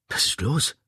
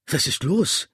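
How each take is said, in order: First: Said in the usual way. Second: Raised, higher-pitched urgent cry; calling out, pitch jumping up; shouted question. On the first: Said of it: "fragte ich". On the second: A narrator's reading. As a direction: shout the question after someone. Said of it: "schrie ich".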